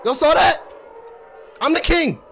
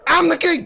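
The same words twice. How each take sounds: First: Higher, louder brag, stress on "king"; "king" पर ज़ोर, शेखी से; boastful. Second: Higher, louder brag, stress on "I'm"; "I'm" पर ज़ोर, और ऊँचे सुर में शेखी; boastful. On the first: Boasting after win. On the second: Repeated boast. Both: Acted.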